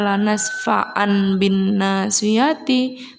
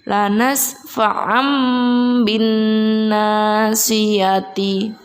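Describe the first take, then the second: First: The tanwin is pronounced as a plain n sound. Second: The tanwin becomes a nasal m with closed lips. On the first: The speaker calls it wrong. "Jadi bukan lagi dibaca" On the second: The speaker calls it right.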